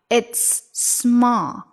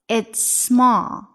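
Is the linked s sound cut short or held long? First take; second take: held long; held long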